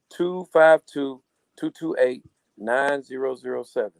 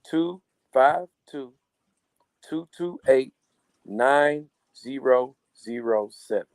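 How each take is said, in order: First: The number is said at a quicker pace. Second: The number is said at a slower pace.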